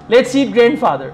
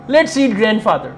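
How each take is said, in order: No difference in how they are said.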